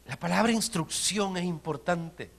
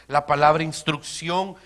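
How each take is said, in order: First: Said in the usual way. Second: "La palabra instrucción" repeated louder, rising at the end; preacher repeating the key word for emphasis; emphatic repeat. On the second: Shown as a demonstration. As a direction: punch "instrucción" again with a rise.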